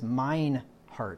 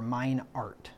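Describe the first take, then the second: First: The h at the start of heart is pronounced. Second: The h at the start of heart is silent.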